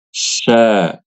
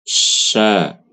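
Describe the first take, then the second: First: The sh sound is made with pouted, rounded lips. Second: The sh sound is made without rounded lips. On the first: The speaker calls it wrong. "yang kurang fasih itu membaca huruf shin-nya itu sambil monyong" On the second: The speaker calls it right. "yang fasih itu adalah ketika mengucapkan huruf shin tanpa monyong"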